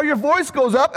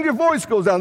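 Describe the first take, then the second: First: "up" lifted slightly at the end; voice going up. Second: "down" falling in pitch; voice going down. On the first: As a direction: let the pitch rise a little on "up". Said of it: "When the notes go up". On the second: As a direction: let the pitch drop a little onto "down". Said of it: "when the notes go down". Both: Shown as a demonstration.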